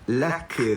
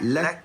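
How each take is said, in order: First: It ends with an added a vowel. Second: It ends on a breathy k with no vowel. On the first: The speaker calls it wrong. "Jangan baca laka" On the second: The speaker calls it right. "Keluarkan sifat hamas"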